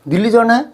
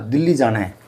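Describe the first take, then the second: First: It is said with surprise. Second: It is said as a flat statement.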